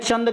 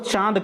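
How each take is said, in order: First: A short vowel is followed by an n sound. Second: A long vowel is nasalized with no separate n. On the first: The speaker calls it wrong. "आप कह रहे हैं चंद कह रहे हैं" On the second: The speaker calls it right. "पता लगा आपको चाँद कहना है"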